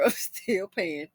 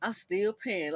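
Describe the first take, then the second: First: Slow, laughing repeat; laughing at herself. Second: Said in the usual way. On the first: Shown as a demonstration. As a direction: chuckle it out slowly at yourself.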